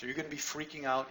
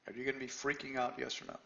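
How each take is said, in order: First: Said in the usual way. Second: Are you gonna be freaking out asked again, softer; softer repeat. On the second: Real, not acted. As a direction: press the question quietly. Repeats the question to the room.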